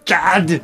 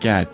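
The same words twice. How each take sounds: First: The word is yelled loudly. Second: The word is said plainly and quietly.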